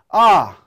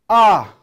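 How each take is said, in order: Both takes have the same delivery.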